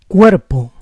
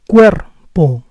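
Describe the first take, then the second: First: The R is a soft tap. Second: The R is rolled. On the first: "With the soft R" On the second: "With the rolling R"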